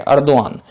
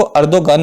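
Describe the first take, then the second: First: अर्दोआन with no g, ओ gliding straight into आन; Turkish pronunciation. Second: अर्दोगन said with a clear hard g, the common misreading; wrong reading. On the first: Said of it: "Turkish भाषा में इसको अर्दोआन पढ़ते हैं". (तुर्की उच्चारण: अर्दोआन, बिना ग के) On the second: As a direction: say अर्दोगन with the g fully sounded. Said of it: "इसको अर्दोगन नहीं पढ़ते हैं". (ग़लत उच्चारण: अर्दोगन, ग साफ़ बोलते हुए) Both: Shown as a demonstration.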